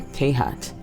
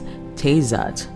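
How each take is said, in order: First: The name is said with a Spanish-style pronunciation. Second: The name is said without a Spanish-style pronunciation. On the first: The speaker calls it wrong. "I might have added a bit of a Spanish pronunciation there" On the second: The speaker calls it right. "I think it's Tezat, actually"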